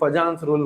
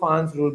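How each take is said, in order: First: The name is said with a J sound. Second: The name is said without a J sound. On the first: "बहुत लोग फजान्स rule बोलते हैं" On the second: "जे साइलेंट होता है"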